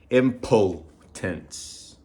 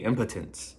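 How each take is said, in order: First: It is said with a Mexican Spanish pronunciation. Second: The vowel after the P sounds like 'a'. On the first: The speaker calls it wrong. "I read it like the way we pronounce the words" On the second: The speaker calls it right. "Like if there was an A after the P"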